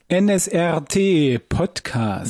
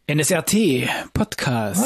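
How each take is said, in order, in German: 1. Die Phrase wird in einem langsameren Tempo gesprochen. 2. Die Phrase wird in einem schnelleren Tempo gesprochen.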